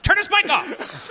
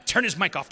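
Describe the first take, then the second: First: Raised, insistent repeat; louder insistent command. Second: Said in the usual way. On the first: Real, not acted. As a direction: say it again, pushing harder. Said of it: "repeated louder, higher". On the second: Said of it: "repeated command, second louder".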